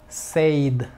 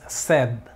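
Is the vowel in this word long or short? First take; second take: long; short. First: The vowel is long, like in say. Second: The vowel is short, like Spanish sed. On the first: The speaker calls it wrong. "Aquí no digas say" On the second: The speaker calls it right. "No, es said"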